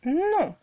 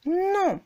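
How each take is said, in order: First: Said in the usual way. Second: "Non" starting high and dropping sharply; falling tone non. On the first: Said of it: "C'est comme quand vous dites non". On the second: Shown as a demonstration. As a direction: fourth tone "Non", short and falling. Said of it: "un ton descendant et bref".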